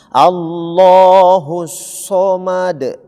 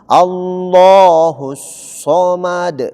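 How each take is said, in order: Both takes have the same delivery.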